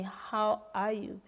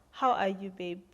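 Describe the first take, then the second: First: Tender question. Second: Said in the usual way. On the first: Retold or imitated. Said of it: "he looked into my eyes and asked me". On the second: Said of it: "And he said to me".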